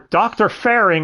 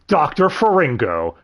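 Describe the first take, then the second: First: The name ends without the final vowel syllable. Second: The name ends with a final vowel syllable.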